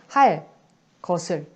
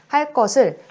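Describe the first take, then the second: First: There is a pause between the two words. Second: The two words run together without a pause. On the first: "띄어서 발음을 하면 할 것을 이렇게 된소리 대기가 일어나지 않지만" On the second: "이렇게 이어서 발음을 한다면 붙여서 발음한다면 된소리 대기가 일어난다"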